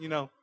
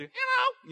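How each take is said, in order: First: Said in the usual way. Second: Very high helium squeak. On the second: Shown as a demonstration. Preacher shows church what helium does, tiny high squeak. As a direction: squeak it out like you breathed helium. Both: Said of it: "You go from talking like this to".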